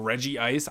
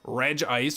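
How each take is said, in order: First: The name is said as three syllables, 'Reggie Ice'. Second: The name is said as two syllables, 'Reg Ice'. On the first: "I prefer to call him Reggie Ice" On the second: "I know that it's probably Reg Ice"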